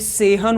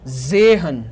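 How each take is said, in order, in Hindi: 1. यह शब्द s ध्वनि से शुरू होता है। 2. यह शब्द z ध्वनि से शुरू होता है। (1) "ये सेहन होना चाहिए जनरली बट नहीं" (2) "ये क्या होगा"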